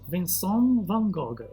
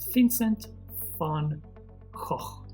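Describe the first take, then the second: First: The name is said with a French pronunciation. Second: The name is said with a Dutch pronunciation. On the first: "In France, people pronounce his name like this" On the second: "the real way to pronounce his name is the Dutch way"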